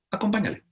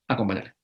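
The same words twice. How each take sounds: First: Acompáñale said higher, urging the listener; Acompáñale, raised like a gentle command. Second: Acompáñale said lower and softer, sinking in; Acompáñale, a quiet echo of the call; soft repeat. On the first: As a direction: lift Acompáñale up as a call to action. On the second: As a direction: let Acompáñale fall gently, like advice to keep. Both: Shown as a demonstration.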